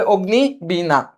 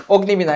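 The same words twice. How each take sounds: First: অগ্নিবীণা slowly split as ogni-bina; অগ্নিবীণা at half speed, in two parts; corrected pronunciation. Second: Said in the usual way. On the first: Shown as a demonstration. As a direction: draw out অগ্নিবীণা with a clear b in বীণা. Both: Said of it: "এটা কি হবে?".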